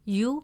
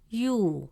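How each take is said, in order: First: The vowel is short. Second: The vowel is long. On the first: The speaker calls it wrong. "Instead of pronouncing it as you" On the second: The speaker calls it right. "the presence of waw makes it you"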